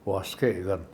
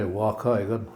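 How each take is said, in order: First: It is said with an s before k. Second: It is said without an s before k.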